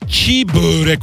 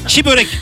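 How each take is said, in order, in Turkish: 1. Kelimelerde yumuşak G sesi telaffuz edilir. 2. Kelimelerde yumuşak G sesi telaffuz edilmez. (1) "En yanlış şey çiğ börek olur. Bu katmerli bir yanlış" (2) "Doğrusu çiğ börek"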